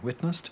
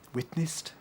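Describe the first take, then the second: First: It is said with the modern vowel. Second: It is said with an old-fashioned I vowel. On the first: "where we might now say witnessed" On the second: "using I"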